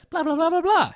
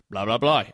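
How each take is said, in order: First: High-pitched put-on character voice; mock actor's line. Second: Lightly voiced low character, mumbo-jumbo dialogue; a hint of a lower-pitched character voice; mock actor's line. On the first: Reviewer mimicking an actor cutting in before "he said", high put-on voice. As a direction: pipe it up high, mimicking a cast member. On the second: Reviewer mimicking an actor cutting in on the narrator, lightly voiced low character. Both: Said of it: "we switch to an actor who says their lines".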